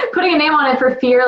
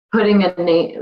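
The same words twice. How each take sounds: First: Laughing. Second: Said in the usual way. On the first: Real, not acted. Repeats phrase laughing, nervous.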